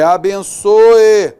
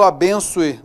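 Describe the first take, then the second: First: "abençoe" slow and louder, every vowel clear, ending in a distinct "o-e"; careful pronunciation. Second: "abençoe" run together, ending sounding like "bençue"; everyday pronunciation. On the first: Teacher correcting himself for the class, "abençoe" slow and loud. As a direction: spell out "abençoe" slowly, "a-ben-ço-e". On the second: Teacher showing students how he says it day to day, "abençoe" ending like "ue". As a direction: say "abençoe" the casual way, the o-e blurring into "ue". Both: Shown as a demonstration. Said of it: "eu falo abençoe".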